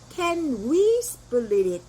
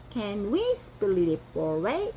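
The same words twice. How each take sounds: First: Can we split it drawn out very slowly with we stressed; slow model question to the waiter; very slow demo. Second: Can we split it four way drawn out very slowly, rising at the end; slow model question to the waiter about a four-way split; very slow demo. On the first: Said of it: "이렇게 말하면 돼요". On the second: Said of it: "이렇게 하시면 돼요". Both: Shown as a demonstration.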